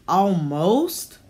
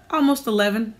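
First: A questioning, rising "Almost?"; sceptical echo. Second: Said in the usual way. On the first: Acted. Old landlady doubts Ashley's age with a rising "Almost?".

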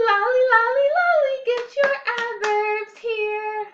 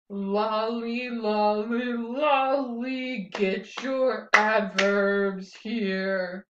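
First: Much higher, louder, sung with a big grin; beaming, high, loud singsong chant; happily. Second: Grumpily. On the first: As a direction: sing it out with exaggerated joy. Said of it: "Let's do it happily". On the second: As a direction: drag it out like a grumpy kid. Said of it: "let's do it grumpily". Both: Shown as a demonstration.

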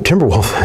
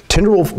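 First: Said in the usual way. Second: Timberwolf pitched up high. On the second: Shown as a demonstration.

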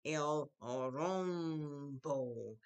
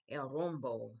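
First: "El rombo" very slowly, each vowel held long; drawn out. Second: Said in the usual way. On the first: Shown as a demonstration. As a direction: stretch "El rombo" out for the class. Teacher models a new word.

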